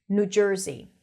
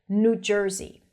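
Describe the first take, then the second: The two takes are said the same way.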